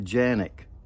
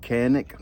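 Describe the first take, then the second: First: The word begins with a J sound. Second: The word begins with a hard K sound. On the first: This is how people in Turkey say it. "but they call it a Janik" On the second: This is how people here say it. "we call it Canik"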